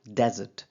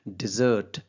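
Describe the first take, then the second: First: The stress is on the first syllable. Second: The stress is on the second syllable. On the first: "मैंने first syllable यानी कि डे वाले पे ज़्यादा force use की है" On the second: "डिजर्ट के अंदर मैंने दूसरा सिलेबल यानी ज वाले पे ज़्यादा जोर दिया है"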